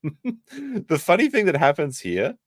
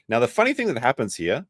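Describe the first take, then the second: First: Slow, high, laughing through it. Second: Said in the usual way. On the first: Real, not acted. Streamer laughing at the memory, restarting the line. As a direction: crack up as you repeat it.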